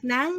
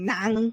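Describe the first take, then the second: First: It is said with the tone of 'sunny'. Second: It is said with the tone of 'heavy'. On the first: The word means sunny. "nang is like sunny" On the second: The word means heavy. "nang is like heavy"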